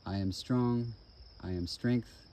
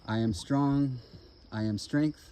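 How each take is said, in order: First: It is said at a medium volume. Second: It is said in a loud, clear voice. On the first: "Medium voice" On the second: "in a loud, clear voice"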